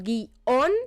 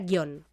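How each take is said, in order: First: The word is split into two syllables. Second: The word is said as one syllable. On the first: This is how people naturally say it. "yo pronuncio guión porque es como sale de manera natural" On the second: Nobody actually says it this way. "nadie pronuncia guión"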